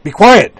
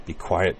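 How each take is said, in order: First: Sudden high, loud snap; snapped. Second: Said in the usual way. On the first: A narrator's reading. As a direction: bite the words off at him. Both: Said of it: "Utena snapped".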